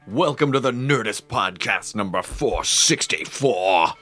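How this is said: It is said in a silly put-on voice.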